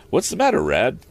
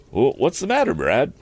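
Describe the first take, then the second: First: High-pitched question, dropping onto "Rad"; corrected retake. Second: Stumbling start, name misread as "Brad". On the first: Acted. Young inventor asking the handyman, cleanly saying "Rad". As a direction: ask it cleanly, with "Rad" starting on R. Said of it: "I'm flipping over those words". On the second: Real, not acted. Narrator fluffing the young inventor's question, stumbling onto "Brad". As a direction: trip on "Wh-", then say "Brad" for "Rad". Stumbled take, then corrected.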